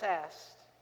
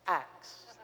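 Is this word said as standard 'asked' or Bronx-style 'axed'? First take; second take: standard; Bronx. First: It is said as standard 'asked'. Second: It is said Bronx-style, like 'axed'. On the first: The speaker calls it right. "I said it right, right?" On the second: The speaker calls it wrong. "I couldn't say it without the Bronx X"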